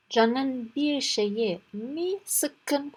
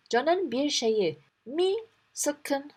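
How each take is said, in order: First: Slow demo. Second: Slow concerned asking. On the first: Shown as a demonstration. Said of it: "We said here". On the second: Acted. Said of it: "demiş".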